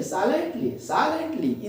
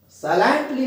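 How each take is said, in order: First: "silently" as SAI-lent-ly, falling after SAI; first-syllable stress. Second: "silently" as sai-LENT-ly, high on the middle LENT; wrong stress. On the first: Teacher correcting the mistake, first syllable stressed. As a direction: lean on the SAI of "silently", lighter ending. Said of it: "stress देंगे". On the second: Teacher showing the mistake to avoid, middle syllable stressed. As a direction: push the second syllable of "silently". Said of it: "silently नहीं". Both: Shown as a demonstration.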